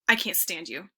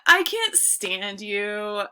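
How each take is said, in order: First: It is said in a serious, sincere tone. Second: It is said in a playful, joking tone. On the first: The speaker really means it. "Very different tone" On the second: The speaker is only kidding. "That sounds funny. Like we're just messing around"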